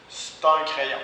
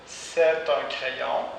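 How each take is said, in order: First: "c'est" reduced to "st" before "un"; spoken st for c'est. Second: Said in the usual way. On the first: Shown as a demonstration. Teacher models reduced "c'est un crayon". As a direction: drop the vowel: "st un crayon". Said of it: "on le prononce parfois st". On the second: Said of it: "on le prononce parfois".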